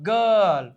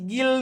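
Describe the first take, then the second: First: The vowel sounds like er. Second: The vowel sounds like a short i. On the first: The speaker calls it right. "નહીં ગર્લ" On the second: The speaker calls it wrong. "કે પછી ગિલ નો થાય"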